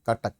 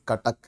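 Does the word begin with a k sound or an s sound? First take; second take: k sound; k sound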